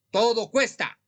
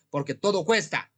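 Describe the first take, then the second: First: "todo" hit higher and louder; emphatic repeat. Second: Said in the usual way. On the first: Shown as a demonstration. Healer presses his audience that "todo" costs, raised and emphatic.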